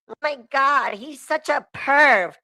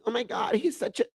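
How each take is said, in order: First: It is said in a put-on female voice. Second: It is said in his normal voice.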